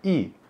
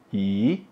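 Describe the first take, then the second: First: It is said with a high falling tone. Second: It is said with a rising tone. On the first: It comes before a first-tone syllable. "Bei itu nada satu, jadinya i" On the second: It comes before a fourth-tone syllable. "Kalau ke itu nada empat, jadinya i"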